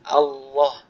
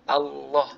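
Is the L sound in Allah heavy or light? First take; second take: heavy; heavy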